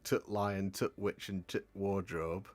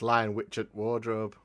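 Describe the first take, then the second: First: Each 'the' is said as a clear 'tut'. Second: Each 'the' is swallowed and barely articulated. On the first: The speaker calls it wrong. "people will say things like" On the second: The speaker calls it right. "You get rid of the tut"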